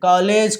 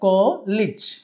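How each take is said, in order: First: The last syllable ends with an 'ej' sound. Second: The last syllable ends with an 'ij' sound. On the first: The speaker calls it wrong. "కాలేజ్ కాదు" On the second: The speaker calls it right. "ఇజ్ అని చెప్తాం"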